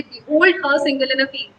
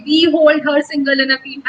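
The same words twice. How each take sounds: First: Slow, iambic reading of "Behold her single in a field"; metrical reading. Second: Said in the usual way. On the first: Shown as a demonstration. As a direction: read "Behold her single in a field" slowly, weak then strong syllables. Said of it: "हम कहेंगे". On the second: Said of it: "तो वैसे नहीं बोलेंगे".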